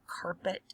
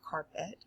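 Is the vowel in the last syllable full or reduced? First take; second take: reduced; full. First: The last syllable has a weak schwa vowel. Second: The last syllable has a full eh vowel. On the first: "normally we pr- pronounce it carpet" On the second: "I'm taking it as it meant eh, so carpet"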